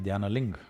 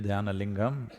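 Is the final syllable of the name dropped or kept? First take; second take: dropped; kept. First: The name ends without its final syllable. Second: The name ends with its full final syllable. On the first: "they'll cut it off" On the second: "If you say Dhyana Lingam"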